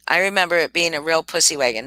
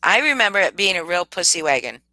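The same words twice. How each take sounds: First: Rattled off faster; quicker repeat. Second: Said in the usual way. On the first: Shown as a demonstration. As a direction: say it again, hurried, as a quick echo.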